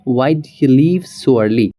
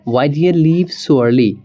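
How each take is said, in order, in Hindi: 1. 'did you' शब्द मिलकर एक ध्वनि बन जाते हैं। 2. 'did you' शब्द मिलकर एक ध्वनि बन जाते हैं।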